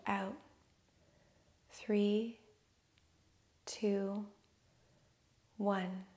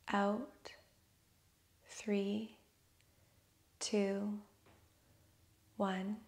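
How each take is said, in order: Both takes have the same delivery.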